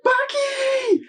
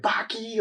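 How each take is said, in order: First: Screaming for help, much higher and louder; girl screams out to Baki for help, high and loud; desperate scream. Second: Calling his name, higher; girl calls for Baki as the bull swings at her, higher. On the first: She shrieks Baki's name as the bull attacks, much higher and louder. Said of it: "She's like". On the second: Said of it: "calling for him". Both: Retold or imitated.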